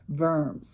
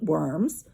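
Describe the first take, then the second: First: The word begins with a V sound. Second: The word begins with a W sound. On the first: It means the German town. "we usually pronounce it Worms, more like a V" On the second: It means the animals. "he didn't have to go and eat worms"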